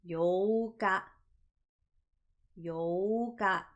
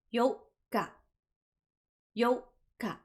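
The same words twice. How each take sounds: First: Yoka with the o drawn out long, yooka; long o sound. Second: Yoka with a clear pause before ka, yo-ka; pause in the middle. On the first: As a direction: stretch the o in yoka, yoooka. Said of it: "We lengthen out the O sound". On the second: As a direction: hold a short stop inside yoka, yo ... ka. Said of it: "There is a pause in the middle". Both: Shown as a demonstration.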